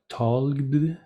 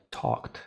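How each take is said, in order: First: "talked" drawn out slowly with a voiced ending, "talg-d"; wrong voiced D option. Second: "talked" ending in voiceless KT, softer; correct T option. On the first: Teacher offering a wrong option, voiced D ending. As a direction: end "talked" on a buzzing D. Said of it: "¿Cuál sería la opción correcta?". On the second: Teacher offering the right option, voiceless T ending. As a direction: say "talked" as a short "tokt". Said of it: "no tiene vibración". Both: Shown as a demonstration.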